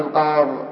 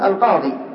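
First: The word ends on a bare consonant. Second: The word ends with a long ee vowel. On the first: "ولك أن تحذف الياء" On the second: "لك أن تقف على الياء بالسكون"

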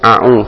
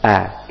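First: It opens with a throaty ain sound. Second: It opens with a light glottal stop. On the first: The speaker calls it wrong. "Jangan A'u" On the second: The speaker calls it right. "tapi A dengan senyuman A"

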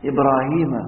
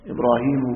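First: The name ends with an 'a' vowel. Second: The name ends with a 'u' vowel. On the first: Ibrahim is the one being tested. The speaker calls it right. "إبراهيم مفعول به" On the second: Ibrahim is the one doing the testing. The speaker calls it wrong. "لا تقل إبراهيم، لا"

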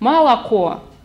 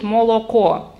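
First: The unstressed vowels are reduced toward a. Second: Every vowel is pronounced as a full o. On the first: The word is pronounced differently from how it is written. "а мы говорим «молоко», а пишем «молоко»" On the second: The word is pronounced exactly as it is written. "Поморы до сих пор говорят «молоко» и пишут «молоко»"

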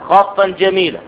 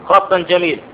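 No difference in how they are said.

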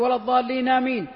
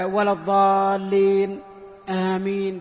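First: The words run together without any pause. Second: A short light pause comes before the last word. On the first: The response is joined onto the recited verse. The speaker calls it wrong. "بعض الناس يقول ... هذا غلط لأنه شبك" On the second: The response stays separate from the recited verse. The speaker calls it right. "خفيفة حتى يتراد النفس فقط"

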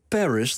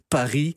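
First: The stress is on the first syllable. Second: The stress is on the last syllable. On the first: "Dan gaat het weer naar de eerste lettergreep" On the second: "Fransen zeggen Paris. ... Altijd laatste lettergreep"

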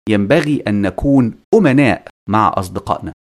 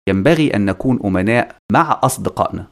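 First: The stress falls on the word أمناء. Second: The stress falls on the word أصدقائنا. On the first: One should be honest in general. "في الحالة الأولى النبر على أمناء" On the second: Honesty is owed only to friends. "أي أننا ملزمين بالأمانة مع الأصدقاء فقط"

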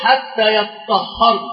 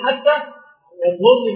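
First: The word is said with doubled, heavy consonants. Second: The word is said with single, light consonants. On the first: "هناك قراءه اخرى" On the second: "التخفيف"

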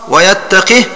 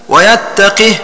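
Both takes have the same delivery.

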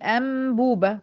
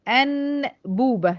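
First: An m sound comes right before the b. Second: An n sound comes right before the b. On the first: "احنا بننطقها بنقول ام بوبه" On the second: "هي المفروض بتتكتب ان بوبه"

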